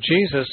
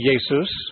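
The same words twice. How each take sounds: First: The name begins with a J sound. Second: The name begins with a Y sound. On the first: "Jesus is the English pronunciation" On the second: "In German, you'd say Jesus, ... the J is pronounced like a Y"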